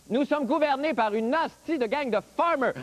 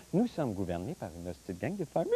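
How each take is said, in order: First: Said in the usual way. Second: Lower, softer cooing; cutesy soft voice. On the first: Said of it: "Autre exemple". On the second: Shown as a demonstration. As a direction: say it sweetly to a kitten. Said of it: "Avec le chaton". (voix douce et gaga)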